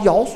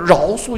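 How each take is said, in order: First: The first syllable starts with a y sound. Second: The first syllable starts with a retroflex r. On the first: The speaker calls it wrong. "为什么到处摇树啊" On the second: The speaker calls it right. "饶树应该是卷舌发音"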